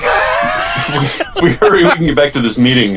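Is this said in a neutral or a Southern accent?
Southern. It is said with a Southern accent. The speaker calls it right.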